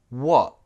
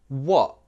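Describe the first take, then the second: Both takes have the same delivery.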